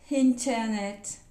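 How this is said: It is said with an English pronunciation. "I write like this, but I pronounce internet"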